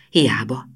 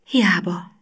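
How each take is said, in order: First: Said in the usual way. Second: Voiceless whispered Hiába, falling. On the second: A narrator's reading. Gina giving up inside, whispering Hiába. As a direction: breathe Hiába out with no voice.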